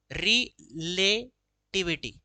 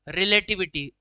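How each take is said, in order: First: "relativity" drawn out slowly, broken after रि and ले; split into syllables. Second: Said in the usual way. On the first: Shown as a demonstration. Teacher counting syllables, "relativity" slowly pulled apart piece by piece. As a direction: sound out "relativity" as रि, ले, टिविटी with gaps. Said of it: "तीन आ गया इसमें". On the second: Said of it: "relativity तो इसके अंदर".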